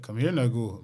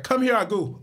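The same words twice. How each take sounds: First: Put-on plain-pitched, bassier Nigerian accent. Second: High, loud put-on accent; movie's African accent. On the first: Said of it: "a real Nigerian be like". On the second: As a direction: mimic the film's off accent. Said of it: "he'd be like".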